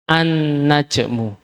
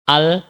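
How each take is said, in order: First: An-najmu slowly with the l merged into a doubled n; assimilated lam. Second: Al-najmu with the l sounded before n, as the mistaken way; wrong reading. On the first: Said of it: "Sehingga bacanya". (an-najmu pelan, lam dilebur ke nun) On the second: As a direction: say al-najmu keeping the l. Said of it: "kalau nggak ada tasdid, nanti khawatir bacanya". (bacaan salah al-najmu, lam dibaca jelas) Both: Shown as a demonstration.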